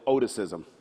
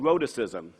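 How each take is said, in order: First: The first R sound is dropped or weakened. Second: The first R sound is pronounced clearly. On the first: "or as I called it" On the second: "It's called rhoticism"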